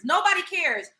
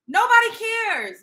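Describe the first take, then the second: First: Said in the usual way. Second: Nobody punched higher and louder, slowed; stress on Nobody. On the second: Real, not acted. Telling the chat off, Nobody stressed high. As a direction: hit Nobody hard and drawn out.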